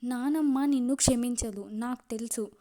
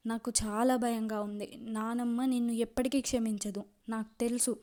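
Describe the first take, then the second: First: Anger flaring back up; a burst of temper on నానమ్మ నిన్ను క్షమించదు; sudden anger. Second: Forcing each word out through sorrow; choked with grief. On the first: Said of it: "కోపం వచ్చేసింది". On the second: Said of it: "బాధతో గొంతు కూరుకుపోతుంటే". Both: A narrator's reading.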